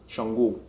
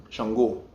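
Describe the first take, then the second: No difference in how they are said.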